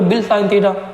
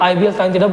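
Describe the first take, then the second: First: IBL is run together into one word. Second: IBL is said as three separate letters. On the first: The speaker calls it wrong. "बोलो बिल sine theta" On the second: The speaker calls it right. "आई बी एल sine theta बोलना ज़्यादा अच्छा है"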